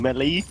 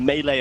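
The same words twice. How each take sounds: First: The word is said the British way. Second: The word is said the common way. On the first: This is how the other commentator says it. The speaker calls it wrong. "your beautiful British way of pronouncing melee" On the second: This is how most of the Western world says it. The speaker calls it right. "instead of melee"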